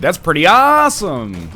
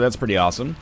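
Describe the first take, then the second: First: It is said with lively, excited energy. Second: It is said flatly, with little energy. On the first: The speaker calls it right. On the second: The speaker calls it wrong.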